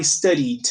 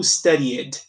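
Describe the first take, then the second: First: Studied in two syllables, "studid"; alternative pronunciation. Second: Studied with a separate "ed" at the end, "studi-ed"; real ED sound. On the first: Teacher offers another way to say studied, merged ending. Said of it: "dependendo da sua pronúncia, pode falar". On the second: Teacher gives an exception, studied with full ED. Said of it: "real som de ed em inglês". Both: Shown as a demonstration.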